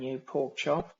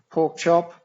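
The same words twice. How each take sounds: First: Said in the usual way. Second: "pork chop" called out much louder, rising at the end; loud Aussie exclamation. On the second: Shown as a demonstration. Explaining Aussie slang to viewers, a loud exclaimed "pork chop". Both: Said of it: "Aussies do like to say".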